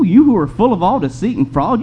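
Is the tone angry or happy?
happy. It is said in a cheerful, happy tone. The speaker calls it wrong. "Can you see Paul saying this with a happy tone?"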